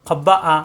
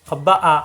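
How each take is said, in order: The two takes are said the same way.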